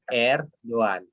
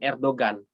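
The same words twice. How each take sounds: First: No g sound is heard in the middle. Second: A hard g sound is heard in the middle. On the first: The speaker calls it right. "Tapi Erdogan. Yumusak G-nya itu tidak dibaca" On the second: The speaker calls it wrong. "Bukan Erdogan"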